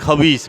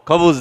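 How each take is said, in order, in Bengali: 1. শব্দটি 'a...i' স্বরধ্বনির ধরনে উচ্চারিত হয়। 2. শব্দটি 'u' স্বরধ্বনি দিয়ে উচ্চারিত হয়। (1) "অনেকে তো উচ্চারণে ভুল থাকলে খবিসও কয়" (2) "খবুস দাও"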